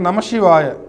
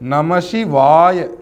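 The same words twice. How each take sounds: First: The vowel in 'va' is held short. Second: The vowel in 'va' is held long. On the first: The speaker calls it wrong. "நீங்கள் குறியில எந்த அளவுக்கு சொல்கிறீங்களோ அதே அளவு தான் சொல்லுவீங்க" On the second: The speaker calls it right. "இந்த வகாரத்திற்கு மட்டும் ரெண்டு மாத்திரை அளவு"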